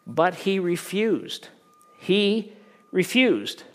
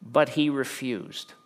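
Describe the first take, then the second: First: "But he refused" slow, high and loud, "He" punched; emphatic refusal. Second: Slow, deliberate verse reading. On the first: Preacher stressing the refusal to the congregation, "He refused" loud and slow. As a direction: hit "He" and "refused" hard and slow. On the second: Preacher reading the refusal slowly to the congregation. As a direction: read it slowly, weighing each word. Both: Shown as a demonstration. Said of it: "Now look at the response".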